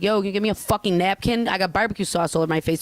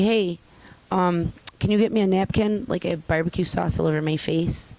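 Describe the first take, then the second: First: Fast, punchy demand around the curse word; street-tough ask for a napkin, fast; cursing demand. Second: Polite, mild request with no curse word; courteous everyday request; polite ask. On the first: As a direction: say it rough and quick so they jump. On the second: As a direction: ask nicely, a bit raised. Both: Shown as a demonstration. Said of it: "It's an inflection".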